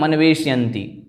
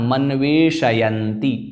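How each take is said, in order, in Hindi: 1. 'sh' ध्वनि उसके स्वर के बिना बोली जाती है। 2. 'sh' ध्वनि उसके पूरे स्वर के साथ बोली जाती है। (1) "कई कई लोग उच्चारण करते थे मनवेशयन्ति, शकार को हलंत कर देते हैं, वह नहीं करना है" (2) "शकार पूरा है, अतः मनवेशयन्ति"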